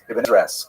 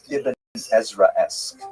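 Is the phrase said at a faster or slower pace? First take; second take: faster; slower. First: The phrase is said at a faster pace. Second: The phrase is said at a slower pace.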